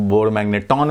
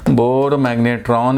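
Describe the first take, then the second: First: बोर मैग्नेटॉन with the r dropped, टॉन not ट्रॉन; without the r. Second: बोर मैग्नेट्रॉन with a clear r in the last syllable, ट्रॉन. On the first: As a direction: say मैग्नेटॉन, plain ट with no r. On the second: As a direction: say मैग्नेट्रॉन keeping the r after ट. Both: Shown as a demonstration. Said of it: "आर गायब हो जाता है".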